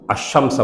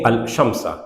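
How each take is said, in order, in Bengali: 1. 'l' টা পরের 'sh' ধ্বনির সঙ্গে মিশে যায়। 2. 'sh' এর আগে 'l' আলাদাভাবে উচ্চারিত হয়। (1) "আশামসা বলতে পারি" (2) "ভেঙে আল শামসা"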